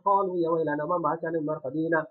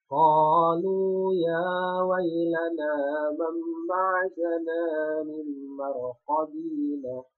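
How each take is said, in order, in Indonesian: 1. Dibaca dengan cepat, bunyi panjang dipendekkan. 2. Dibaca dengan lambat, bunyi panjang ditahan. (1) "kalau bacanya itu cepat" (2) "kali ini kan ada mat"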